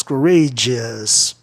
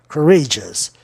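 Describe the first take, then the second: First: "courageous" with -geous split in two; "courageous" in four syllables, lower and slow; two-syllable ending. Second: "courageous" with -geous as one syllable; "courageous" in three syllables, ending compact. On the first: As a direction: say "courageous" slowly as cou-RAY-jee-us. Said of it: "pessoas que pronunciam duas sílabas". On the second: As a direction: say "courageous" as cou-RAY-jus. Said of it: "é uma sílaba só". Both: Shown as a demonstration.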